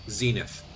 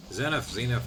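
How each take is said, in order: First: Zenith as ZEE-nith, long ee. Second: Zenith as ZEN-ith, short e first. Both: Shown as a demonstration. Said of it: "however you pronounce it".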